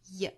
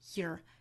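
First: It ends in a weak vowel with no r-sound. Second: It ends with an r-colored sound. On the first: "英音呢我们刚才讲到读 ye" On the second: "美音呢会后面加一个 er 的发音读成 year"

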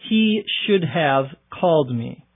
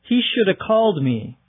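First: 'Should have' is said as two full words. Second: 'Should have' is reduced to 'shoulda'.

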